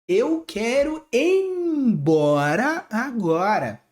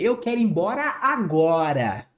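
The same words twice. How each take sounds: First: The emphasis falls on the word embora. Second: The emphasis falls on the word agora. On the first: "Ou até mesmo o embora" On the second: "colocar esse ponto de exclamação em cima do agora"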